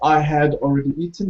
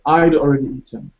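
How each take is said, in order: First: The word 'had' is said in full with H. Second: The H is dropped and 'I had' contracts. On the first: "So not I had already eaten" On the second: "you said I'd already eaten"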